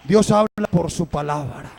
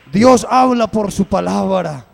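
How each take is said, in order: First: Said in the usual way. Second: Louder repeat, Dios hit hard; louder second take of Dios habla por su palabra; emphatic repeat. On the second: Acted. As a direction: proclaim it to the whole church. Preacher repeats line louder.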